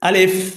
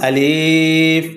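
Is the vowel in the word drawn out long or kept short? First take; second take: short; long. First: The vowel is kept short. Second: The vowel is drawn out long. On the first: The speaker calls it right. "কীভাবে বলতে হবে?" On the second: The speaker calls it wrong. "অনেকে আমরা এই আলিফকে টান দিয়ে বলি, যেমন আলিফ। এভাবে টান দেওয়া যাবে না।"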